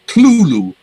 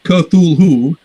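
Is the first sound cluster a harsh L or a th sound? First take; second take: harsh L; th sound. First: It has two syllables with a harsh L sound. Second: It is said with a th sound. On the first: The speaker calls it right. "two syllables" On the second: The speaker calls it wrong. "It's not Cthulhu"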